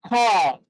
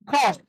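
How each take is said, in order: First: It has a long vowel, American style. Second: It has a short vowel, British style. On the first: "American. In American it is long" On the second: "British, in British English it is short"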